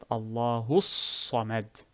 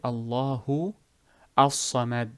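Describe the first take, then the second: First: The two words are fused together without a break. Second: The two words are said separately with a break. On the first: The speaker calls it right. "So you will fuse it" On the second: The speaker calls it wrong. "you do not say"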